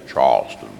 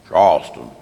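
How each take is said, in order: First: It is said in a deep, resonant voice. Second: It is said in a plain voice.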